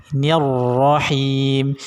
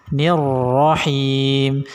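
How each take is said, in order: No difference in how they are said.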